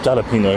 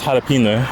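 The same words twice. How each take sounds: First: The word begins with an English J sound. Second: The word begins with an H sound. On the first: The speaker calls it wrong. "in English spelled with J, so it would be jalapeno" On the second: The speaker calls it right. "I know it's jalapeno"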